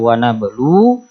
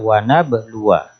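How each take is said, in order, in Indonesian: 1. Frasa ini berakhir pada bunyi u panjang. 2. Frasa ini berakhir dengan wa pendek tambahan. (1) "kalau berhenti dibaca wa nablu" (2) "kalau tidak berhenti dibaca wa nabluwa"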